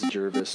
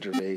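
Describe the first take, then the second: First: The name is said as Jervis. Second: The name is said as Gervais. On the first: The speaker calls it right. "it is Jervis" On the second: The speaker calls it wrong. "not Gervais"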